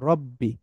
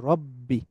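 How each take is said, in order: Both takes have the same delivery.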